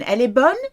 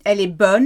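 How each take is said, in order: First: "Elle est bonne?" rising up on bonne as a question; asking about the sea with a rising "bonne?"; question tune. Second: Level statement tune on "Elle est bonne", falling at bonne; calm statement "Elle est bonne"; flat statement. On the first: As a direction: ask "Elle est bonne?" with the voice lifting at the end. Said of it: "Is the water good?". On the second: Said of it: "tone of voice is very important". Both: Shown as a demonstration.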